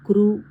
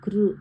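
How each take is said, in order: First: The syllable ends in a long 'oo' vowel. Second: The syllable ends in a short 'ru' vowel. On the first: The speaker calls it wrong. "క్రూ అని అనకూడదు" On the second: The speaker calls it right. "కృ అనాలి"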